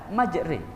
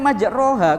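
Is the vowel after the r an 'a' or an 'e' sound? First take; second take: e sound; a sound. First: The vowel after r sounds like an 'e'. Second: The vowel after r sounds like a clear 'a'. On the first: This is how the word is recited. "kok dibaca majri" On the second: This is how the word is written. "tulisannya kan majroha"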